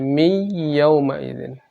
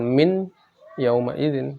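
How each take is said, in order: First: The n merges into a nasalized, held y. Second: The n sound is pronounced clearly before y. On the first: The speaker calls it right. "tapi mi yauma idzin" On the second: The speaker calls it wrong. "Jadi bukan min yauma idzin"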